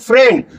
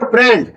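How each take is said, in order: First: The word begins with an F sound. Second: The word begins with a P sound. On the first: The speaker calls it right. "फे का sound आएगा" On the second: The speaker calls it wrong. "Not फ्रेंड"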